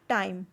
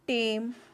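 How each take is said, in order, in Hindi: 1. इस शब्द में 'ai' ग्लाइड स्वर है। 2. इस शब्द में सादा 'e' स्वर है।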